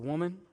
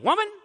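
First: It is said in a soft, gentle tone. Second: It is said in a harsh, disrespectful tone.

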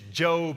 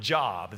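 First: It does not sound like the word for work. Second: It sounds like the word for work. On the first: This is the name of the man in the book. The speaker calls it right. "it's Job" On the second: This would mean an occupation. The speaker calls it wrong. "not Job. This is not a book about occupation"

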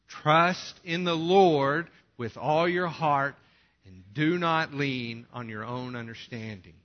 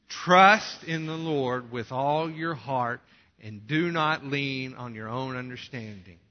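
First: The word Lord is stressed loudly. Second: The word trust is stressed loudly.

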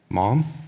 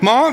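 First: It is said fairly quietly. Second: It is said loudly, near shouting.

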